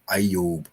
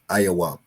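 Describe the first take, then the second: First: The name is said as two syllables, ending 'yob'. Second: The name is said as three syllables, ending 'wab'. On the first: This is the later block-script reading. "In the in the block script, he'll say Eob" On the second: This is the older paleo reading. "but it's in the paleo pronunciation is Ayawab"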